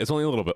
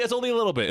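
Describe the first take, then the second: First: Said in the usual way. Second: High reassuring. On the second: Acted.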